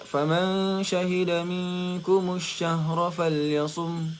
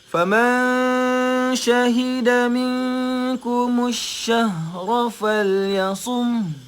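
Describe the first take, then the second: First: It is recited quickly with sounds less drawn out. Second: It is recited slowly with each sound drawn out. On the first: The recitation rules are less noticeable. "bila kita baca laju contoh" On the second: The recitation rules become clearly noticeable. "Dia baca slow memang dia akan dengar macam tu"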